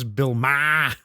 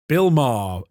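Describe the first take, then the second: First: It is said in a Boston accent. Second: It is said in a standard accent. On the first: "if you were from Boston" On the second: "like Maher is in car"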